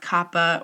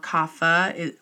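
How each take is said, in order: First: The middle consonant is a breathy p sound. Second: The middle consonant is an f sound. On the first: This follows the original Sanskrit. "it's an aspirated, so you're supposed to breathe a little bit with it" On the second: This follows how it is said in Hindi today. "the Hindi pronounces it with a PH"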